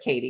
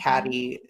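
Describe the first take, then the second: First: The first vowel sounds like in 'Kate'. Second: The first vowel sounds like in 'cat'. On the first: The speaker calls it right. "but Katie, yes" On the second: The speaker calls it wrong. "I like to mispronounce her name"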